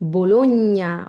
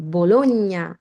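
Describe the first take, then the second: Both takes have the same delivery.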